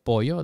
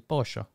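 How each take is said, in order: First: The double L sounds like a y. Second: The double L sounds like sh. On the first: "Instead of pollo" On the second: "But Argentinians pronounce it pollo"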